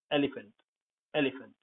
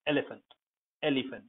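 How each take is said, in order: Both takes have the same delivery.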